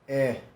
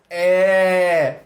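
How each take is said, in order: First: The vowel sounds dull, with no smile. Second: The vowel sounds bright, said with a smile. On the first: The speaker calls it wrong. "Não é essa cara de bunda" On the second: The speaker calls it right. "tem que falar é, dá um sorriso"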